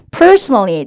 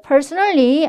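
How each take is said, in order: First: Personally with a long, loud first syllable; PERsonally, first syllable held long and big; English word stress. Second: Said in the usual way. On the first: Shown as a demonstration. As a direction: stretch and punch PER in "personally". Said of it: "personally 아니고 personally 따라해볼게요". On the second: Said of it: "personally 아니고 personally".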